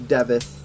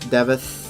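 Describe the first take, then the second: The two takes are said the same way.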